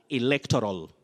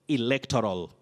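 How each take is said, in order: Both takes have the same delivery.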